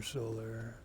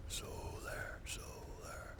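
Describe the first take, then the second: First: Said in the usual way. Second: High, breathy whisper calling it out; solar, solar, whispered playfully; coaxing whisper. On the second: Pretend. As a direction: whisper to lure it out of hiding. Coaxing whisper to hidden item.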